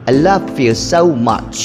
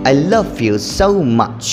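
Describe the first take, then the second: Both takes have the same delivery.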